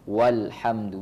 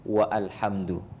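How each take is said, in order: First: Wa runs straight into alhamdu, no glottal stop. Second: Wa stays separate, with a glottal stop before alhamdu. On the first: The speaker calls it right. "Jadi walhamdu" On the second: The speaker calls it wrong. "bukan lagi dibaca wa alhamdu"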